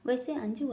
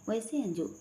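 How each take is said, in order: First: "वैसे Anju" with a light upward lilt on Anju; affectionate rising call. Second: "वैसे Anju" dropping down at the end, playful; teasing falling call. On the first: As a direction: ask her name gently, voice rising at the end. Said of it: "प्यार से कहता है". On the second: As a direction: say her name with a knowing, falling tease. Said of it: "शरारत से कहता है". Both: A narrator's reading.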